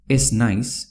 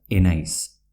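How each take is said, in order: First: Said in the usual way. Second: "enaiz" run together as e-nais; Z dropped before N. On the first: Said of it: "se pronuncia enaiz". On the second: Shown as a demonstration. Teacher shows how ez naiz merges, Z dropped. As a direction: say "enaiz" as one word, no z before n. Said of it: "igual a N".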